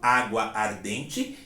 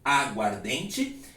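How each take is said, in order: First: The two words are said separately, both vowels kept. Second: The two words merge, losing one vowel sound. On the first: The speaker calls it wrong. "Eu não falo água ardente" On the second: The speaker calls it right. "e sim aguardente"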